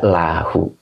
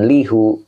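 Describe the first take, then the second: First: The first syllable has the vowel a. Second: The first syllable has the vowel i. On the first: The speaker calls it right. "dibaca lahu" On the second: The speaker calls it wrong. "dibaca jangan lihu"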